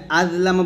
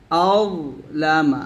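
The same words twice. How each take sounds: First: আযলামা with a plain জ sound; wrong way. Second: আযলামা with a thick heavy র-like sound; correct way. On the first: A teacher showing the error of a plain জ. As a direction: say আযলামা with a light জ, the mistake. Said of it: "আযলামা বললে এটা জাল হয়ে যাবে". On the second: A teacher saying আযলামা before naming the mistake. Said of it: "আযলামা বললে কিন্তু ভুল হবে". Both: Shown as a demonstration.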